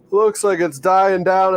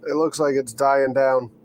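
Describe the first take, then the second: First: Slow, loud yawned words; yawning. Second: Said in the usual way. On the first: Real, not acted. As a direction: talk through a big yawn. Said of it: "Don't mind my yawning".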